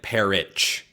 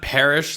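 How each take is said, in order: First: It ends with an 'itch' sound, like pear-itch. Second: It ends with an 'ish' sound, like parish. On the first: The speaker calls it right. "like the fruit and then something you scratch" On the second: The speaker calls it wrong. "not parish like a church"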